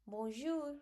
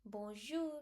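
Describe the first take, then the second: First: "Bonjour" with the R stressed too much, higher; the wrong way: punch the R in "Bonjour"; overdone R. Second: The right way: let the R fade in "bonjour"; light R. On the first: Teacher showing students what not to do. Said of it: "You shall not highlight too much bonjour". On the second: Teacher showing students the correct way. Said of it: "You just have to speak like bonjour". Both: Shown as a demonstration.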